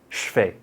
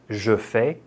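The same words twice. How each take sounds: First: It is said very fast, sounds run together. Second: It is said at a careful, slower speed.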